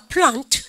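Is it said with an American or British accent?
British. It has the British broad 'ah' vowel.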